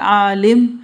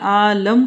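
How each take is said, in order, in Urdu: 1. ل کے بعد والی حرکت 'i' ہے۔ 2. ل کے بعد والی حرکت 'a' ہے۔ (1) "اگر آپ عالم کر دیں گے لام کے نیچے زیر تو علم والا" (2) "عالم کر دیں لام پہ زبر کر دیں"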